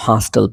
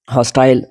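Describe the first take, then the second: First: हॉस्टल with a reduced "tl" ending; American pronunciation. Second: हॉस्टाइल with a full "TILE" ending; British pronunciation. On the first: Teacher shows how Americans read hostile, American pronunciation. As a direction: say हॉस्टल as "HOS-tl". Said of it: "American इसको हॉस्टल पढ़ते हैं". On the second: Teacher shows our British pattern, British pronunciation. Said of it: "हमारा तो British pattern है". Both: Shown as a demonstration.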